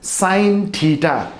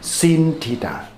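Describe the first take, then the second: First: The first word has a long 'eye' vowel. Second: The first word has a short 'i' vowel. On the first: The speaker calls it right. "this sin is pronounced as sine theta" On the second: The speaker calls it wrong. "but not sin theta"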